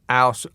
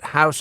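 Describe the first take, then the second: First: The word begins without an h sound. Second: The word begins with an h sound. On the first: The speaker calls it wrong. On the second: The speaker calls it right. "pronounce the following words"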